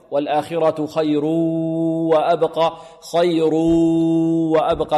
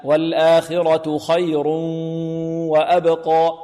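First: Slow recitation, خير stretched into وأبقى orally, without hum; mouth-only ghunna. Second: Slow recitation with a nasal hum joining خير to وأبقى; nasal ghunna. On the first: Teacher shows the error, خير وأبقى joined without nasality. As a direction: drag an oral oo from خير into وأبقى. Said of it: "هذا خطأ". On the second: Teacher corrects it, خير flowing nasally into وأبقى. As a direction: hum through the nose between خير and وأبقى. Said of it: "لا". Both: Shown as a demonstration.

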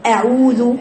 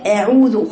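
First: أعوذ with an upright, level hamza; أعوذ done right for the class; correct pronunciation. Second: أعوذ with a tilted hamza, wrong; أعوذ done the wrong way for the class; wrong pronunciation. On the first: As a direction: say أعوذ with the jaw open and straight. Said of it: "الهمزة معتدلة". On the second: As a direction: say أعوذ with the jaw twisted. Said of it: "أعوذ خطأ". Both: Shown as a demonstration.

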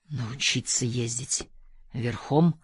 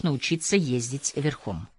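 First: Low, slow, quiet musing; pensive mutter. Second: Said in the usual way. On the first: A narrator's reading. Narrator doubtfully repeats Kader's riding offer to himself, muttering. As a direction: mutter it to yourself, questioning. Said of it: "пробормотал я, размышляя".

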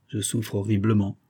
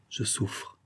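First: Said in the usual way. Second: A hushed, unvoiced je souffre; whispered. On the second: Robert confessing his suffering to his friend, whispered. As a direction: breathe je souffre out without voice. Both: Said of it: "me dit-il à voix basse".

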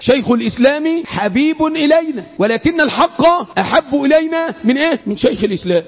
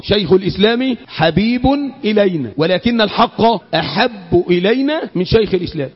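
First: Raised, ringing recitation that drops on the final answer; emphatic repetition for memorising. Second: Measured second recitation, settling lower on the closing phrase; measured teaching recitation, low ending; repetition for memorising. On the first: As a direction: drive the saying home, pausing to quiz listeners. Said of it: "أعيدها تالت". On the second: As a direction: restate the saying evenly so listeners memorise it. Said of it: "أعيدها تاني عشان تحفظ". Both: Shown as a demonstration.

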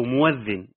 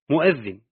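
First: موذن said as mawdhin with an open و and no glottal stop; موذن بفتح الواو بغير همز; without hamza. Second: مؤذن with a clear glottal stop after the م; مؤذن بالهمز; hamza reading. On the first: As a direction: drop the hamza in موذن and glide straight through the و. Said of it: "بفتح الواو بغير همز". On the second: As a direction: pronounce مؤذن as mu'adhdhin, hamza audible. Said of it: "أو موذن بفتح الواو بغير همز". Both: Shown as a demonstration.

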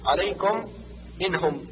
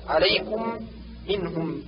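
First: عليكم منهم with u opened toward o; damma leaning to fatha. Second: عليكم منهم with clear u in -kum, -hum; rounded pure damma. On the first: Teacher shows the error, عليكم منهم with loose o-like damma. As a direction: say -kom, -hom in عليكم منهم. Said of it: "النطق بالضمة ما بين الضمة والفتحة". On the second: Teacher corrects, عليكم منهم with pure rounded u. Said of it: "بضم الشفتين". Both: Shown as a demonstration.

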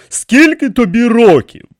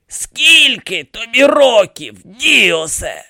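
First: High, loud repeated question; asking in disbelief. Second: High, slow creaky question; creaking demand. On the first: King questions the priest's age, incredulous. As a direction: ask it firmly, wanting a real answer. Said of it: "перепитав він". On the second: Dead pharaoh demands the priest's age, creaking accusingly. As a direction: draw the question out as an accusing old mummy. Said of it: "проскрипів він". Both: A narrator's reading.

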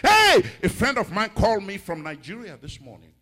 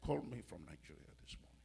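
First: High, loud "hey" easing down; excited preacher announcing news; excited exclamation. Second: Very soft, low and quick; quiet, low aside; hushed repeat. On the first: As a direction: burst into the testimony with a cry. Exclaims, launching a testimony. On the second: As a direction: drop right down, almost to yourself. Repeats, dropping to quiet storytelling. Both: Real, not acted.

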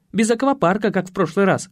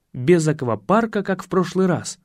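First: Lightly voiced woman giving a warning, lifted pitch; наставляющая Татьяна. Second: Said in the usual way. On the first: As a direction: warn the donkey in a slightly higher voice. Татьяна наставляет осла, позже цитируется. (слегка повышенным голосом, наставительно)

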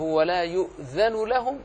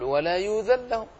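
First: Slow, يؤذن with its hamza sounded and لهم kept apart; careful slow tajweed with a clear hamza in يؤذن; teacher's correct version. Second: يؤذن said as يوذن, the hamza dropped and the nun run into لهم; quick slurred يؤذن لهم without the hamza; student's wrong version. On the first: Shown as a demonstration. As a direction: model يؤذن لهم slowly with the glottal stop. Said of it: "أقول له". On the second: Retold or imitated. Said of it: "يقول".

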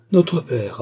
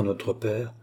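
First: Bitter echo, higher and louder. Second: Said in the usual way. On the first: A narrator's reading. Sister echoes her brother's mention of their father, bitterly. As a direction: throw the words back with bitterness. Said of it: "reprit André avec amertume".

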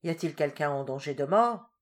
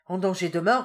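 First: Said in the usual way. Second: Repeated urgently. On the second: A narrator's reading. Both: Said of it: "répéta le curé".

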